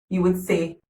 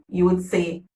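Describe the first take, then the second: Both takes have the same delivery.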